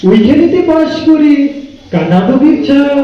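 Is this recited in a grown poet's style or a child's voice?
child's voice. It is recited in a small child's voice. A small child is reciting the poem. "ছোট্ট বাচ্চাকে দেওয়া হয় তাহলে তার আবৃত্তির স্বরটা এমন হবে"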